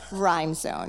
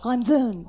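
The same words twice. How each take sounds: First: It is said in a plain, normal accent. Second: It is said in a French-style accent.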